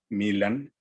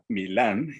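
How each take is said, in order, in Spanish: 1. El acento está en la primera sílaba. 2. El acento está en la última sílaba. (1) "acentúa el nombre eh, como si fuera grave" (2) "acentuando su nombre como si fuera una palabra aguda"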